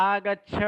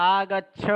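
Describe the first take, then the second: The two takes are said the same way.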